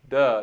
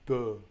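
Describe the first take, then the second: First: It is said plainly, with an ordinary voice. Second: It is said with a dopey, dark, lowered voice. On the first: "if I just said duh" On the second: "But if I say duh, it really pulls it down"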